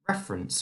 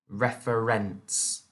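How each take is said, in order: First: The word is said naturally, endings reduced. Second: The word is said with exaggerated, clear syllables.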